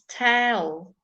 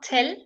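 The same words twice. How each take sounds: First: The vowel is shifted and coloured by the L. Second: The vowel is a plain short e sound. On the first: The speaker calls it right. "it's tell" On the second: The speaker calls it wrong. "so it's not tell"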